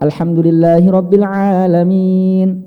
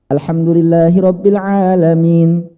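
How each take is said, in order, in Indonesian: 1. Vokal panjang terakhir dibaca sedang. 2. Vokal panjang terakhir dibaca sebentar. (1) "empat harokat" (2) "boleh dibaca dua"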